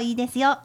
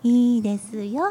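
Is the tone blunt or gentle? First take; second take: blunt; gentle. First: It is said in a blunt, curt tone. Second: It is said in a gentle, kind tone.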